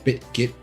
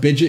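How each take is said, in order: First: The name is said fully, with both t sounds clear. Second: The name is clipped, with the t sounds blurred. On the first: The formal way of saying the name. "I think it's the formal uh formal way to say it" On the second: A casual, lazy way of saying the name. "I call it Bidget because I'm lazy"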